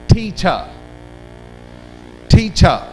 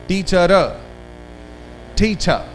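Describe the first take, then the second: The two takes are said the same way.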